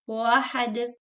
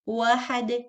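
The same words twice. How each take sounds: First: The word begins with a w sound. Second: The same.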